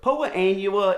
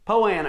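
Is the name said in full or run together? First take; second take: full; run together. First: Both words are said in full, separately. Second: The two words merge into one short word. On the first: "the right way to say it" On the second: "down where I'm from, we call it Poana"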